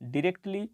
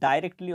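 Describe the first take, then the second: First: The first syllable sounds like 'dih'. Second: The first syllable sounds like 'dye'.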